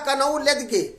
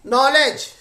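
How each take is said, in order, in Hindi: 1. हर अक्षर बोला जाता है, k और g सहित। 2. k साइलेंट है, इसे nolej बोला जाता है। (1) "वो समझ नहीं पाया" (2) "लिखा हुआ था नॉलेज"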